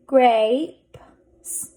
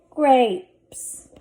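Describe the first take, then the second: First: Grapes in separated pieces, final p and s apart; blended slowly. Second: Said in the usual way. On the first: Shown as a demonstration. Teacher sounding out a word for readers, blended slowly. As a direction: sound out grapes, pausing before each final consonant. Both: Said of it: "Let's read this".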